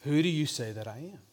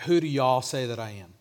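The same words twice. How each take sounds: First: Said in the usual way. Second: Put-on lightly localized Rolesville accent, "y'all" for "you"; Rolesville y'all phrasing. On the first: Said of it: "it would have sounded like". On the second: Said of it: "if Jesus was from Rolesville".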